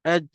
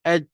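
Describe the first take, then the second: First: The final j is held with breath escaping. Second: The final j is held with breath escaping.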